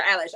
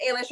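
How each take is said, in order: First: Eilish said as EYE-lish; first vowel of Eilish as in "eye"; EYE-lish pronunciation. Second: Eilish said as AY-lish; first vowel of Eilish as in "day"; AY-lish pronunciation. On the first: Co-host showing the other option for [name], EYE-lish. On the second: Co-host showing one option for Eilish, AY-lish. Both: Shown as a demonstration. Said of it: "it can be pronounced".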